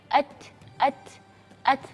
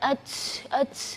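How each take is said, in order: First: The t is released with only light breath. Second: The t is released with a strong, hissing breath. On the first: The speaker calls it right. "angin yang keluar itu sewajarnya saja" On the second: The speaker calls it wrong. "Jangan at at nanti orang kira oh ini bersin"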